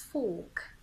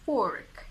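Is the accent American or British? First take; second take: British; American. First: It is said in a British accent, R silent. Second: It is said in an American accent, R pronounced. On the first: "In the British accent" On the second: "The American accent saves you here because we pronounce the R"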